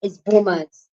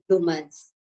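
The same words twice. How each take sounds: First: "boomers" with no L after the B; corrected pronunciation. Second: "bloomers" with an L slipped in after the B; habitual mispronunciation. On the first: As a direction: say "boomers" starting plain B into oo. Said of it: "let me know how to pronounce that". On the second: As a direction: say "bloomers" with a BL opening. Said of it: "But I usually say bloomers". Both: Shown as a demonstration.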